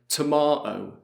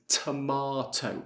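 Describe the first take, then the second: First: The middle T is a glottal stop. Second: Both T sounds are fully pronounced. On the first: "we use the glottal T" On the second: "I pronounce both T's"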